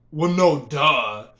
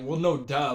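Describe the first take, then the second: First: Loud, emphatic duh dropping at the end; sarcastic obviousness. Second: Said in the usual way. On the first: Retold or imitated. Teller reacting to a silly question, emphatic sarcasm. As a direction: state the obvious with a louder punch. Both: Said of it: "In my mind, I'm like".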